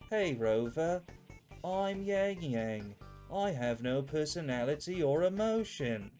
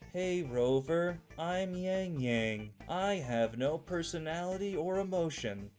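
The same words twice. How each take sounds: First: It is spoken in a British accent. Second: It is spoken in a non-British accent. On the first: "she was using a British accent" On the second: "Instead of going"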